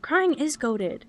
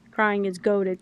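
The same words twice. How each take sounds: First: Drawn out. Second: Said in the usual way. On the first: Shown as a demonstration. Repeated catchphrase, drawn out.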